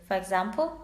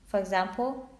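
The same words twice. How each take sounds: The two takes are said the same way.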